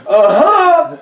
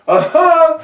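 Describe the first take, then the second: Both takes have the same delivery.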